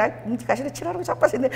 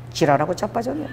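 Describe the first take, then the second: First: Soft Busan dialect teasing, falling at the end; friendly Busan banter. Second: Low Busan dialect retort, lifting at the end. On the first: Close friends teasing each other, in familiar Busan dialect. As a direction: toss off a Busan insult between close friends. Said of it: "이게 엄청 친한 사이야". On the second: God cutting short a tearful prayer, in Busan dialect. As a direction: drop a dry Busan dialect put-down. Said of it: "이게 부산 말이거든요". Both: Retold or imitated.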